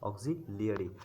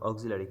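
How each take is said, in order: First: The middle is said as 'lee-ya'. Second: The middle is said as a plain 'la'. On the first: The speaker calls it right. "অক্সিলিয়ারি actually" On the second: The speaker calls it wrong. "আমরা বলি অক্সিলারি verb, অক্সিলারি, কিন্তু অক্সিলারি না"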